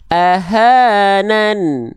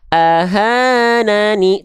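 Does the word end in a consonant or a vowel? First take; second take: consonant; vowel. First: The word ends on a bare n sound. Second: The word ends with a final i vowel. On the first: The speaker calls it right. "tapi jadi ahanan. An jadi an bunyinya, tidak ada vokal lagi" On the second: The speaker calls it wrong. "bukan lagi dibaca ahanani"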